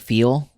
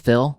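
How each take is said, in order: First: The vowel is long, as in feel. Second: The vowel is short, as in fill. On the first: "the word feel" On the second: "becomes fill"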